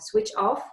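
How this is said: The stress falls on the word off. The speaker calls it right. "the stress always goes on preposition"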